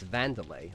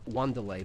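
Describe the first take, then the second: First: The name begins with a V sound. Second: The name begins with a W sound. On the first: The speaker calls it right. "but no, it's Vanderlei. Like the W is pronounced as a V" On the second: The speaker calls it wrong. "You'd think his name is pronounced uh, Wanderlei because it's spelled W A N at the start"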